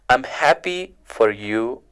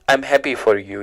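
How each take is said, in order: First: It is said warmly, with happy expression. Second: It is said flatly, without happy expression. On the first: The speaker calls it right. "The sentence is" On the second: The speaker calls it wrong. "so it's not"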